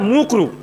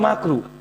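First: The first vowel is a 'u' sound. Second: The first vowel is an 'a' sound. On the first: The speaker calls it wrong. "আসলে শব্দটা ঠিক করে বলে না" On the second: The speaker calls it right. "শব্দটা হচ্ছে মাকরু"

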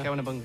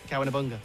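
First: The phrase is said more quickly. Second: The phrase is said fairly quickly. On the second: "Say it quickly"

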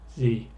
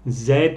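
First: It is said the American way. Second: It is said the British way.

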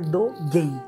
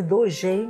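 First: The g is hard, like in gue. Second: The g is soft, like a zh sound. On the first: The speaker calls it right. "mas se lê Dogen" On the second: The speaker calls it wrong. "Escreve Dogen"

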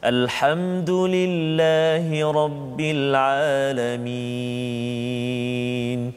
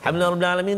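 First: It is recited calmly at a moderate pace. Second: It is recited in a quick rush.

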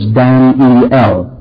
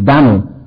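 First: The name is said with three syllables. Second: The name is said with one syllable. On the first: This is the Hebrew form of the name. "the Hebrew word Daniel has three syllables" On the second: This is the older American form of the name. "But the American, only one. ... That's the way Americans pronounced it"

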